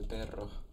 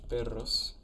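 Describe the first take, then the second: First: The word ends with a breathy h sound. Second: The word ends with a clear s sound.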